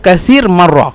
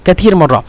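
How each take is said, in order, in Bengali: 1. প্রথম শব্দের মাঝে s ধ্বনি আছে। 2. প্রথম শব্দের মাঝে t ধ্বনি আছে। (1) "এখানে হলো কাসির মাররা" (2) "কাসিরকে কাতির বলে"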